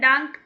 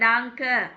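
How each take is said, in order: First: The word ends abruptly on the k sound. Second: The word ends with a vowel after k. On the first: The speaker calls it wrong. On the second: The speaker calls it right.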